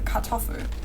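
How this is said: The R is soft and almost swallowed. The speaker calls it right. "but you don't really hear it"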